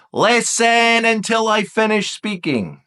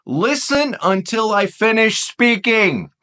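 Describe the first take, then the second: First: Listen leaned on, slow and firm; slow repeated "Listen until I finish speaking"; repeated stress on Listen. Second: Listen drawn out slowly, first word leaned on; slow, emphatic "listen until I finish speaking"; stress on listen. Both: Shown as a demonstration. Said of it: "What did I say?".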